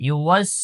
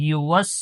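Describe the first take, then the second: Both takes have the same delivery.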